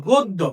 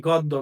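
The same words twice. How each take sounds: First: গদ্য said as "goddo", o vowel and a doubled d; correct pronunciation. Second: গদ্য said as "gaddo" with an open a vowel; common mispronunciation. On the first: Teacher gives students the right way to say গদ্য. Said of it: "উচ্চারণ হলো গদ্য". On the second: Teacher contrasts the common way of saying গদ্য. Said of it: "সচরাচর যেটা বলে থাকি". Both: Shown as a demonstration.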